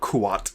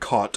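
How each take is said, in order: First: The word is said as 'Kuat'. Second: The word is said like 'caught'. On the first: The speaker calls it right. "somebody has fixed my pronunciation of the term Kuat" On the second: The speaker calls it wrong. "I've said caught in my last video, and I have since corrected it"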